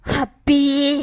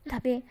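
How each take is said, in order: First: It is said loudly with an angry tone. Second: It is said softly with an affectionate tone. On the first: The speaker calls it wrong. "जोर से ही बोला था, धीमे रह के नहीं बोला था और थोड़ा गुस्से में बोला था" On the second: The speaker calls it right. "प्यार से बोलो हबी। इस तरह से बोलो"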